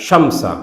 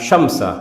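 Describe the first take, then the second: Both takes have the same delivery.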